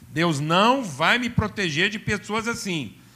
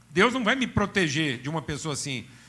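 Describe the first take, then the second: First: It is said slowly and deliberately. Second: It is said at a normal, quicker pace.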